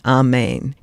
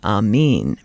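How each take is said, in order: First: The final syllable has an 'eh' vowel. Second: The final syllable has an 'ee' vowel. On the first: This is the Western form. "In the Western, we say Amen" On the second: This is the Eastern form. "In the Eastern, they say Amen. And that E sound has a little more resonance"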